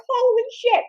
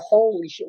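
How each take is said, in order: First: High-pitched, stretched squeak of dismay; acted shock, way up high; shocked reaction. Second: Said in the usual way. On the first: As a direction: react in high, horrified disbelief. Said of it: "I'm like". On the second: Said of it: "I'm going".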